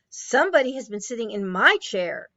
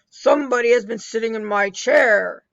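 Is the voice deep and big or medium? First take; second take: medium; big. First: It is said in a medium-sized voice. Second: It is said in a deep, big voice.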